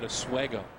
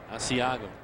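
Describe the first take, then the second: First: The word is slurred into a shortened form. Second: The word is said carefully with every syllable clear. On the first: The speaker calls it wrong. "I used to call that a Swego" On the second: The speaker calls it right.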